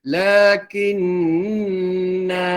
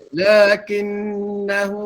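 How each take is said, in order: First: The final vowel is held long. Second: The vowel is short and runs on. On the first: The reciter stops after this word. "Kalau kita berhenti, lakinna, dua harakat" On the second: The reciter continues without stopping. "Bila diwasalkan, baca tanpa mad"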